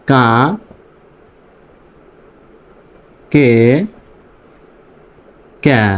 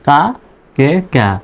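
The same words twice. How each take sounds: First: কা, কে, ক্যা each said alone with long pauses between; slow sound demo. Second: Said in the usual way. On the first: Shown as a demonstration. Teacher drilling the three sounds slowly for learners. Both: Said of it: "এই তিনটা উচ্চারণ হচ্ছে".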